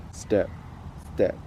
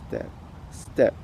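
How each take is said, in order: Both takes have the same delivery.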